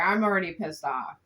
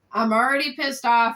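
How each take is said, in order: First: Said in the usual way. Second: Pissed off, louder now; louder annoyed. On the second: Real, not acted. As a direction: raise the voice in irritation.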